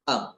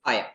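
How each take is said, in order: First: One very short merged syllable, like 'um'. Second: Two separate full words, 'eye am'. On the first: "जब बहुत ज्यादा fluency हो जाएगी तो आप इसे प्रोनाउंस करेंगे अम" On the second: "जब आई के साथ लग जाता है एम तो हम इसे प्रोनाउंस करते हैं आई एम"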